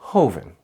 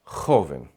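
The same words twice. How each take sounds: First: The J is a soft, gentle breathy sound. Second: The J is a strong, harsh throaty sound. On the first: This is how it is said in Latin America. "In most of Latin America, this sound is a little more chill ... very calm, very chill" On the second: This is how it is said in Spain. "in Spain, that sound is a bit stronger and it comes from the back of the throat"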